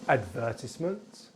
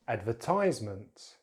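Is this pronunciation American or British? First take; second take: British; American. First: It is said with a British accent. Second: It is said with an American accent. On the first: "in British English" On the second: "then American English"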